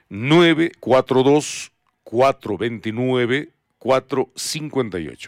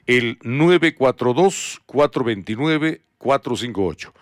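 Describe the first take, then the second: First: It is said more slowly. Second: It is said at normal speed.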